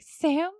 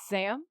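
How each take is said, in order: First: "Sam?" pitched high and loud; insistent questioning call. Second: "Sam?" at ordinary volume, as a mild question; questioning call. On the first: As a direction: call out "Sam?" higher and louder, seeking confirmation. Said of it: "And Pamela's like". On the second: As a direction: ask "Sam?" lightly, unsure who is there. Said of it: "And Pamela says". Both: Retold or imitated.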